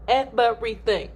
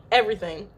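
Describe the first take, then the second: First: "Everything" broken into weighty separate syllables; emphatic EVERYTHING. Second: Said in the usual way. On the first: Real, not acted. Stressing what the husband missed, emphatic syllable-by-syllable "Everything". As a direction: punch out each syllable of "Everything".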